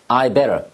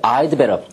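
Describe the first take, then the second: First: The d sound after 'I' is dropped. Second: The d sound after 'I' is clearly pronounced. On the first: "would를 축약시킨 것들은 이 D 발음을 거의 안 합니다" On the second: "I'd better 또는 I'd rather 또는 I'd like to라고 발음하는 성우도 있겠지만"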